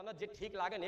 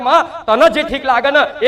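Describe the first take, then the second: First: તને જે ઠીક લાગે ને murmured very softly; hushed surrender. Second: તને stressed, said slowly with a laugh. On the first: Devotee murmuring to the goddess, very soft. Devotee quote, first take. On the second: Goddess teaching her son the prayer, slow and laughing. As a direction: draw out તને જે ઠીક લાગે ને slowly, laughing through it. Quoted devotee, second take. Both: Retold or imitated.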